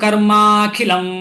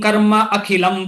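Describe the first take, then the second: First: The two words are merged into one word. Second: The two words are said as separate words. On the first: "ಮತ್ತೆ ಜೊತೆಯಲ್ಲಿ ಸೇರಿಸಬಹುದು" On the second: "ಹೀಗೆ ಓದುದು ಸುಲಭ"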